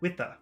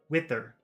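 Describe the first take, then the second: First: The R at the end is dropped. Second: The R at the end is pronounced.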